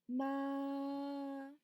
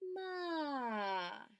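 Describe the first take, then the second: First: The pitch stays high and level. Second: The pitch falls like disappointment. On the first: "Vamos a empezar con el primer tono" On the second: "vamos a hacerlo como si fuera de desilusión"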